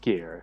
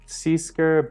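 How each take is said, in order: First: The name is said with one syllable. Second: The name is said with two syllables. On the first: The speaker calls it right. "I found out it's pronounced Skier" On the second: The speaker calls it wrong. "I pronounced it like Seasker, but sorry if I butchered that"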